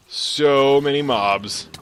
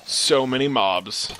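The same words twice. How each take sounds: First: Louder, very drawn-out "so many mobs"; overwhelmed wail. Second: Slow "so many mobs"; overwhelmed exclamation. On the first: Player facing too many mobs, loud slow wail. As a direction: stretch SO loud and long. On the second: Player facing too many mobs, slowly dismayed. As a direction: stretch the words in dismay. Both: Real, not acted.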